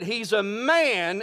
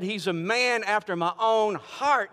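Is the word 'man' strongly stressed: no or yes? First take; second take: yes; no. First: The word man is strongly stressed. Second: The word man gets no special stress.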